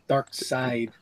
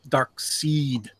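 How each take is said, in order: First: The second part rhymes with 'ride'. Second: The second part rhymes with 'need'. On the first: The speaker calls it wrong. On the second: The speaker calls it right. "I've always said in my life"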